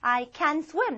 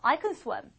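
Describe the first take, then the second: First: The word 'can' is said fully and clearly. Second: The word 'can' is said weakly and reduced.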